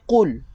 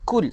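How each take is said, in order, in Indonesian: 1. Bunyinya diawali dengan q belakang yang dalam. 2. Bunyinya diawali dengan k depan yang biasa. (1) "Kita nak baca dengan huruf qaf" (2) "Ramai orang suka dengan baca kul ... salah"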